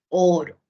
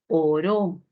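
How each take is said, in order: First: The stress is on the first syllable. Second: The stress is on the last syllable. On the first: It names the precious metal. "oro del metal precioso" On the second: Someone prayed. "Si yo muevo la sílaba tónica"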